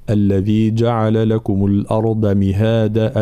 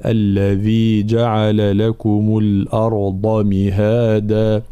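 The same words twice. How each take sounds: First: "الأرض" with a light, unemphatic ض; thin dad mistake. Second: Slow measured recitation with a heavy, emphatic ض in "الأرض"; Quranic recitation. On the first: Teacher imitating a student who gives the ض no heaviness. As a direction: recite it wrongly, the ض thin and flat. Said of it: "لا يعطيها حقها من التفخيم والإطباق، فيقول". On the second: Teacher reciting the verse to students as the model, slow and measured. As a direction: recite it slowly, giving the ض its full heaviness. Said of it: "الانتباه كذلك بالنسبة إلى الترقيق والتفخيم". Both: Shown as a demonstration.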